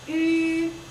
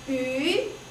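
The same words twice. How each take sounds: First: The pitch stays high and level. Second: The pitch rises from middle to high. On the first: "First tone is flat" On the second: "second tone goes up"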